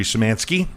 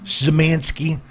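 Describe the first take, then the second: First: Said in the usual way. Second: Szymanski said clearly, a touch higher; careful name repeat. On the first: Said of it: "Szymanski. That's with the Z's". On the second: Shown as a demonstration. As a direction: spell out Szymanski by sound. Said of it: "That's with the Z's".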